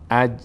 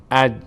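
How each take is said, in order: The two takes are said the same way.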